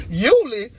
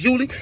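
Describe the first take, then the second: First: Higher, louder shocked query; sharp incredulous YULI; startled echo. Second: Said in the usual way. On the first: Retold or imitated. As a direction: throw the name back, baffled. Victim echoes the wrong name, startled.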